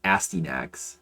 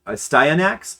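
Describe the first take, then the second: First: Astyanax as "ASS-tee-nax"; rejected pronunciation. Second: Astyanax as "uh-STY-uh-nax", rising high; tentative correct pronunciation. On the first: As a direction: say Astyanax with "tee" in the middle, to rhyme with nasty. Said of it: "It's definitely not". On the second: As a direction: slowly try out Astyanax with a long "eye", questioning. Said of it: "I think I've heard people say it". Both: Shown as a demonstration.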